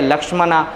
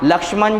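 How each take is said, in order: First: The name ends with a long final 'a' vowel. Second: The name ends on the consonant, no final vowel. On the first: The speaker calls it wrong. "वो बन गए लक्ष्मणा" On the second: The speaker calls it right. "लक्ष्मण जो थे"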